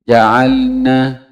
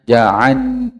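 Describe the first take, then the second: First: The l sound is pronounced clearly. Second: The l sound is blurred and barely heard. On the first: The speaker calls it right. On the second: The speaker calls it wrong. "Jangan sampai tidak terlihat"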